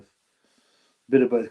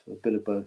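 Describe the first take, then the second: First: "A bit of both" stretched out very slowly; slow, deliberate "bit of both"; slow drawn-out. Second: Said in the usual way. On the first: Shown as a demonstration. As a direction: drag out every word of "A bit of both". Repeating phrase, playing with it.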